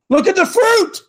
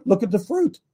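First: High-pitched exasperated cry; insistent, pitched way up; emphatic exclamation. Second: Said in the usual way. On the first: Real, not acted. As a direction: drive it home with a sharp jump in pitch. Exasperated repeat answering his critics.

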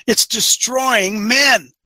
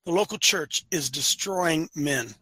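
First: DESTROYING MEN hit hard and drawn out; slow, forceful stress on DESTROYING MEN; emphatic declaration. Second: Slow, lower and softer statement; slow, hushed, deliberate delivery; real slowly. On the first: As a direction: punch DESTROYING MEN, stretching each word. Emphatic claim before slowed repeat. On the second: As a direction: spell it out slowly and quietly. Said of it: "I'll say it again real slowly". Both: Real, not acted.

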